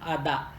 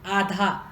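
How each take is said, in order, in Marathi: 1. मधला व्यंजन अल्पप्राण d आहे. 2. मधला व्यंजन महाप्राण dh आहे.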